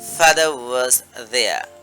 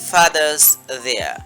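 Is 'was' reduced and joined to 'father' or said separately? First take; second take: separate; joined. First: Was is said separately with its w sound. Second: The w is dropped and was joins father. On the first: "ভেঙে বললে এইভাবে বলতে পারেন" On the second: "একত্র এই যদি আমরা বলতে চাই তাহলে এই ডাব্লিউ এর উচ্চারণটাও আমাদের অমিট হয়ে যাবে"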